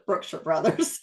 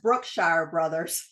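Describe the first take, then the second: First: The name is said in the local Texas pronunciation. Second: The name is said in an outsider's pronunciation. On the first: People in Texas say it this way. The speaker calls it right. "anybody else in Texas, it's Brookshire Brothers" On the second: Someone unfamiliar with Texas said it. The speaker calls it wrong. "He says Brookshire Brothers"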